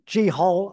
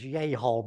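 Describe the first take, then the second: First: The word begins with a J sound. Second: The word begins with a Y sound. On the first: This is the usual Western way of saying it. "Western paleontologists all, always say G-Hole" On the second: This is the correct pronunciation. "I think the correct pronunciation is Yehol"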